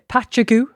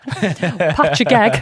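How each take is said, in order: First: The word ends with a goo sound. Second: The word ends with an eg sound. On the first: "some people pronounce this uh" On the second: "some people pronounce this"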